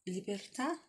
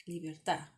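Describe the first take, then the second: First: Said in the usual way. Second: Libertà with the weight on the last syllable, tà; stress on the final A. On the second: Shown as a demonstration. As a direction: land firmly on -tà in libertà. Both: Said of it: "puts the emphasis on libertà".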